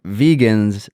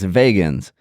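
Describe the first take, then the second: First: Said in the usual way. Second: "vegans" said as VAY-guns, with a long A; Southern pronunciation of vegans. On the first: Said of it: "you refer to vegans still as". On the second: Retold or imitated. Cohost teasing guest's Southern way, "vegans" as VAY-guns. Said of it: "with your Southern accent".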